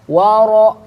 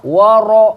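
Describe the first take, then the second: Both takes have the same delivery.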